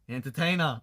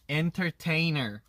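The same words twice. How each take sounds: First: The word is said loosely and casually. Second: The word is said tightly and carefully. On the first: "호주 발음은 그냥 대충 하면 돼요" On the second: "엔터테이너 되게 이렇게 쪼여서 나오잖아요"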